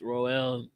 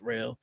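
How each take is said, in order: First: The name sounds like the word roll. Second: The name sounds like the word rail. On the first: "some people say it's Roel" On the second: "some people say it's rail"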